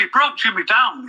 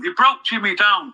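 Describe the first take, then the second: First: Said in the usual way. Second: He broke Jimmy down, slower, leaning on broke; slow emphatic repeat. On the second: Real, not acted. Telling his co-host how Craig treated Jimmy, slowed and stressed on broke.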